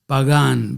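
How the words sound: The name is pronounced with Spanish sounds. It is simply his family name. The speaker calls it right. "please do it in Spanish"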